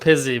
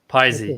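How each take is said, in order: First: The first syllable sounds like 'pizz'. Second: The first syllable sounds like 'pie'. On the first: The speaker calls it wrong. "everyone goes Pizzy" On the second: The speaker calls it right. "piece of pie"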